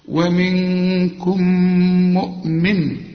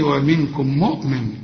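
First: A long nasal hum is held between the words. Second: The words run together without a held nasal sound. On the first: The speaker calls it right. "هنا محطة إجبارية غنة لازم تقف" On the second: The speaker calls it wrong. "اوعى تقول لي ومنكم مؤمن"

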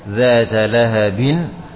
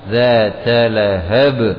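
First: The final word ends with an added vowel and n. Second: The final word ends on a stopped b sound. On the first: "Contohnya pada dzata lahabin" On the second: "binnya pada ba itu jadi disukun"

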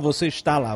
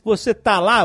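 First: The verb is said in full as está. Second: The verb is shortened to tá. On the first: This is the formal form, not used in casual speech. "Você não fala você está lá" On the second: This is the informal form used in casual speech. "na língua falada, você fala assim"

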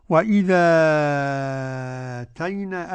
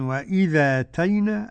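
First: The long vowel is held for six counts. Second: The long vowel is held for two counts. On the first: "أدي ستة مع النقل" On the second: "أدي حركتين مع النقل"

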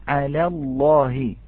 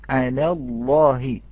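No difference in how they are said.

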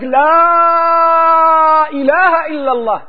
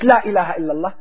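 First: The long vowels are held out fully. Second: The long vowels are cut short. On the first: The speaker calls it right. "Du hast die Verlängerung vergessen. Sag la ilaha illallah" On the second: The speaker calls it wrong. "Nicht la ilaha illallah"

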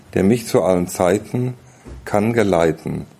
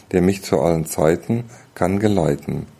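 The two takes are said the same way.

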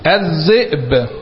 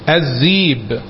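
First: A glottal stop is pronounced in the middle. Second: The glottal stop is replaced by a y sound.

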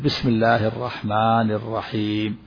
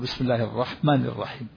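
First: The long vowels are held for two counts. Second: The long vowels are cut short, not held. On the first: The speaker calls it right. "يمد الحروف الطبيعية مقدار حركتين" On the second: The speaker calls it wrong. "لكن إذا لم يمد ماذا يقول؟ ... هذا ما مد"

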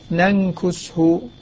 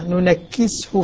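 First: The k is single and followed by a u vowel. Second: The k is doubled and followed by an i vowel. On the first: "والباقون ننكسه كما نص عليها" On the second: "الكاف مكسورة مثقلة"

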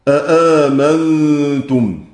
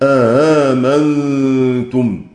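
First: Both glottal stops at the start are fully pronounced. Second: The second glottal stop is softened, not fully pronounced. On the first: "يقرؤون بتحقيق الهمزة الثانية" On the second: "يقرؤون بتسهيل الهمزة الثانية"

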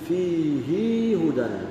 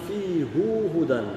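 First: The pronoun ends in a lengthened ee sound. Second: The pronoun ends in an oo sound. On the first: "يزيد فيها الضمير" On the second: "بالواو"

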